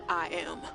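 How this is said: It sounds stiff and unconvincing.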